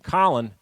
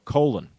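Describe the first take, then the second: First: The name sounds like the usual Collin. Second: The name sounds like the word colon. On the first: This is the common way of saying the name. "the name Colin" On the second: This is the family's own way of saying the name. "he stuck with his Jamaican parents' pronunciation of his name"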